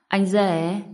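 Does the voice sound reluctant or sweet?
sweet. It is said softly, in a sweet tone. The speaker is eager to please. "Một tiếng anh rể mềm mại"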